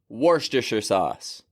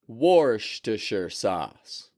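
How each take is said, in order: First: The phrase is said at a fast pace. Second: The phrase is said at a slow pace. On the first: "And now pick it up if you can" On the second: "And then put a little sauce on it"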